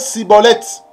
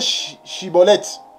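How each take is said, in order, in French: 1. Le mot commence par un son s. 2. Le mot commence par un son sh. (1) "Il ne faut pas prononcer Siboleth" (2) "il faut bien prononcer Chiboleth"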